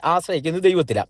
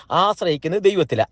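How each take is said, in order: First: ദൈവത്തിലാ given the main weight, then a fall; stress on ദൈവത്തിലാ. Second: ആശ്രയിക്കുന്നത് hit hardest, ദൈവത്തിലാ falling away; stress on ആശ്രയിക്കുന്നത്. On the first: Preacher repeating to congregation, stressing ദൈവത്തിലാ in ആശ്രയിക്കുന്നത് ദൈവത്തിലാ. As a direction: move the emphasis onto ദൈവത്തിലാ. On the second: Preacher to congregation, stressing ആശ്രയിക്കുന്നത് in ആശ്രയിക്കുന്നത് ദൈവത്തിലാ. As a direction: lean on the word ആശ്രയിക്കുന്നത്. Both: Shown as a demonstration.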